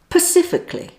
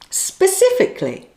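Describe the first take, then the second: First: The word starts with a p sound, like Pacific. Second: The word starts with an s sound before p. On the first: The speaker calls it wrong. "the bad pronunciation is Pacifically" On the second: The speaker calls it right. "The correct word is specifically"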